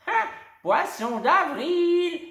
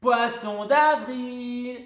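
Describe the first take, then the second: First: Very high, loud and slow; springing the prank back; triumphant exclaim. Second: Loud high, slow, drawn-out cry; crowing at the prank; triumphant shout. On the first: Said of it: "s'exclame alors la dame". (exclamation triomphante, lente) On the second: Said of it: "crient triomphalement les deux fillettes". (cri triomphal, lent et aigu) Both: A narrator's reading.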